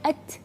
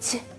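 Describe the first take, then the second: First: The hissing breath is thin and small. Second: The hissing breath is strong, like a sneeze. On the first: The speaker calls it right. "tipis dan kecil saja" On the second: The speaker calls it wrong. "itu itu berlebihan"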